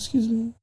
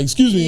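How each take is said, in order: First: It is said softly and timidly. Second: It is said loudly and assertively.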